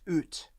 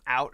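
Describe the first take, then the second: First: It is said with a Canadian accent. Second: It is said with an American accent.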